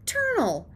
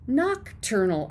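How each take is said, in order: First: "ternal" said with the first syllable dropped, stressed TER, falling; "ternal", missing the noc, said with confidence; childish mispronunciation. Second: "Nocturnal" said in full, noc-TUR-nal, falling; correcting the kid with the full word "Nocturnal"; correct pronunciation. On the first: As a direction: clip nocturnal down to "ternal" like a kid who misheard it. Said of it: "You know, ternal". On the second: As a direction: spell out all three syllables of "Nocturnal". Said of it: "I squeaked". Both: Acted.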